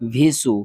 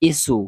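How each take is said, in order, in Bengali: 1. এই অক্ষরটি v ধ্বনি দিয়ে শুরু হয়। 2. এই অক্ষরটি সাধারণ স্বরধ্বনি i দিয়ে শুরু হয়। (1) "আমরা অনেকেই পড়ি ভিসু ... এগুলা উচ্চারণ হবে না" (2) "এগুলা উচ্চারণ হবে না"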